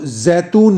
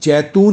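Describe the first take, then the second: First: It is pronounced the Urdu way. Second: It is pronounced the Hindi way. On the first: "Urdu में तो जैतून ही होता है" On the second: "Hindi में अक्सर हम जैतून ही बोलते हैं"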